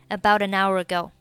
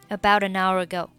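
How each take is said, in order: The two takes are said the same way.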